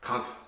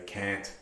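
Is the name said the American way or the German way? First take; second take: German; American. First: The name is said with a German-style vowel. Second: The name is said like American English can't. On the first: "It's German, and I believe it's pronounced Kant" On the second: "I imagine most of you are American, so you can say can't"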